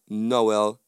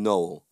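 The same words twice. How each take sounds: First: Noel in two syllables, no-EL; correct name. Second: Noel squashed into one syllable, "nole"; wrong name. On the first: Speaker contrasting his real name, Noel in two syllables. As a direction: say "Noel" as no-EL, stressing the end. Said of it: "one is my name". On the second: Speaker contrasting the disliked version, Noel as one syllable "nole". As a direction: say "Noel" like "no" plus l, low. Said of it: "and one is not". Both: Shown as a demonstration.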